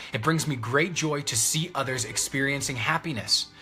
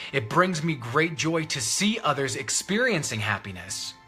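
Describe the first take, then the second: Both takes have the same delivery.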